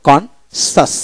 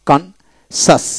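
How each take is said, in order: Both takes have the same delivery.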